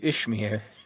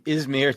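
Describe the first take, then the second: First: The middle consonant sounds like sh. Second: The middle consonant sounds like z. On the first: This is the land's name in the sequel. "to Ishmir" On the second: This is the land's name in the earlier film. "from Izmir"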